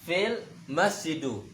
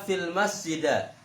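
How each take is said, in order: First: The last word ends in an u vowel. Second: The last word ends in an a vowel. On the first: "tak bisa dibaca" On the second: "Tidak bisa dibaca"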